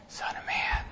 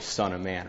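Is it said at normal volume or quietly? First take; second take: quietly; normal. First: It is said quietly, at a low volume. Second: It is said at a normal conversational volume.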